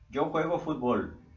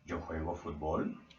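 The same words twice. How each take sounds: First: It is a statement with falling pitch. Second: It is a question with rising pitch.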